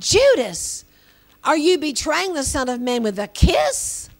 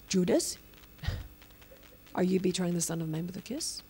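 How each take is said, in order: First: It is said in a flabbergasted tone. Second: It is said in a calm tone.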